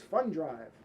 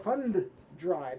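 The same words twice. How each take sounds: First: The two D sounds run together into one. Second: Both D sounds are said separately and clearly. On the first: "they're just rolling those D's together" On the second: "It's not like you hear them say"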